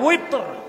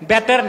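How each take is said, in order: First: The word begins with a W sound. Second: The word begins with a B sound. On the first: The speaker calls it right. "এই উচ্চারণগুলো শুদ্ধ করতে হবে" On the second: The speaker calls it wrong. "আমাদের দেশে মৌলভী সাহেবরা বলে বেতের"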